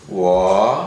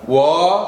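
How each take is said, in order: First: The pitch dips low like a sigh. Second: The pitch stays high and level. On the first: "kita seperti menghela nafas" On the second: "wo itu adalah nada yang pertama"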